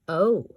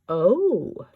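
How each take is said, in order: First: It is said flatly, sounding let down. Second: It is said with lively, excited energy. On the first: The present is somewhat disappointing. "with a comma after it, which would indicate that the present is somewhat disappointing" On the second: The person is pleased with the present. "the exclamation point would indicate that the person is saying "oh" in an excited way"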